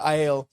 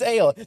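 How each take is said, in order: First: It is said as two syllables, eye-ell. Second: It is said as one syllable, ale. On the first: The speaker calls it wrong. "their I L pronunciation" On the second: The speaker calls it right. "It's just ale"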